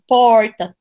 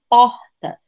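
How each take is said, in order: First: The R is curled back, retroflex. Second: The R is soft, from the throat.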